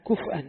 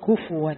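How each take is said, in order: First: كفءا with a silent fa, then hamza; hamza reading. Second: كفوا with damma on fa and waw for hamza; waw reading. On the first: Teacher shows students the lightened reading, كفءا with sukun and hamza. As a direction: say كفءا as kuf'an, glottal stop after the f. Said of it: "بالتخفيف مع الهمزة". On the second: Teacher shows students Hafs's reading, كفوا with a waw. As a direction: say كفوا as kufuwan, no glottal stop. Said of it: "وقلب الهمزة واوا". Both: Shown as a demonstration.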